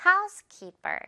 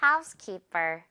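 First: Housekeeper with a puffed, heavy per; forced aspirated p. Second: Housekeeper slowly, with an airless b-like per; natural tense p. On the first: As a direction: push air out on the per of housekeeper. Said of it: "피읍 소리 억지로 내려다". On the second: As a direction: let per in housekeeper fall lightly. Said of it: "자연스럽게 된 소리로". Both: Shown as a demonstration.

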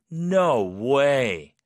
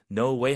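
First: Loud, drawn-out "no way" of disbelief; disbelieving. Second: Said in the usual way. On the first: Shown as a demonstration. Teacher showing the tone for hard-to-believe news, disbelieving. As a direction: stretch it out as if unable to believe it. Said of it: "약간 이런 톤으로". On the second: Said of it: "그냥 no way보다는".

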